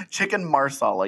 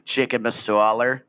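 First: "marsala" said with a clear r, mar-SA-la; correct pronunciation. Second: Slow, Boston-style "masala" with no r; mock Boston accent. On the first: Shown as a demonstration. Correcting her friend's food word, "marsala" with an r. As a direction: say "marsala" with the r sounded. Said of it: "you mean, not masala". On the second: Teasing her friend, slow Boston "masala". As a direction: drop the r in "masala" like a Boston guy. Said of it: "I said it like a Boston guy".

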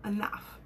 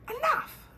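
First: Said in the usual way. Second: Sudden very high yelp of ENOUGH; high mock exclamation. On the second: Vlogger cutting off own singing, high-pitched yelp on ENOUGH. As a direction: squeal the word ENOUGH, much higher.

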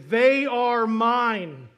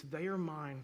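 First: Slow, loud, high tearful cry of love; through tears. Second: Said in the usual way. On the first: Retold or imitated. Family member at the adoption hearing answering the judge, tearful. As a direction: stretch each word out as if choking up. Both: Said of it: "through tears".

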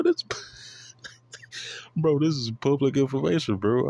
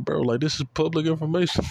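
First: Breathy laugh into high retort. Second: High, exasperated stress on information. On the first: Teasing critics, a laughing high public information. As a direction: laugh it out, half whispering. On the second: To fans quizzing his knowledge, an exasperated high retort. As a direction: throw up your hands at it. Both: Real, not acted.

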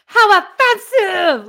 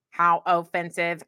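First: Higher, louder, slow indignant outburst; outraged exclamation; mad. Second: Robot voice. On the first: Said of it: "there was an exclamation point". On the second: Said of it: "you told me to read like a robot". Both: Shown as a demonstration.

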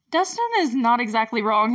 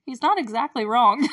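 First: Said in the usual way. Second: Knowing aside. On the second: Retold or imitated. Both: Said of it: "And I'm like".

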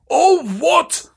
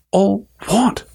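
First: Hagrid's high, booming outburst; thundering. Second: A hint of Harry asking, higher; lightly voiced boy asking, puzzled; puzzled question. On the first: Acted. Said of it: "Hagrid thundered". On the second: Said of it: "asked Harry".

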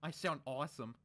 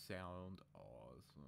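First: Said in the usual way. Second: Much softer, slow, low repeat; hushed echo. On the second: Acted. Dipper quietly admiring his own new voice, slow. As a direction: murmur it back to yourself, slowly savouring.

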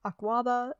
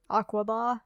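First: Aquaba with a long, open middle "kwah"; second guess at Aquaba, ending on a weak "buh"; alternative pronunciation. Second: Aquaba with a short middle and open final "bah"; first guess at Aquaba, ending on a full "bah"; uncertain pronunciation. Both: Shown as a demonstration. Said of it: "I'm not sure how it's pronounced".

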